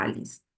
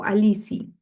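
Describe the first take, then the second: First: Alice said the English way, ending in a soft s; English-style name. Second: Alici said the Spanish way, with a clear final i; Spanish-style name. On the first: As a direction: say Alice as "Alis", with no final vowel. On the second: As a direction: say Alici as "a-LEE-see", ending on the vowel. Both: Shown as a demonstration. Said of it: "cómo se pronuncia tu nombre".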